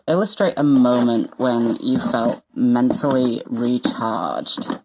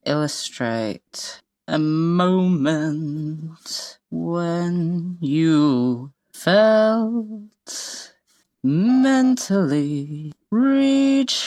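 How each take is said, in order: First: Said in the usual way. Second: Slow drawn out. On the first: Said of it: "reading the prompt aloud". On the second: Shown as a demonstration. Saying the title while writing it.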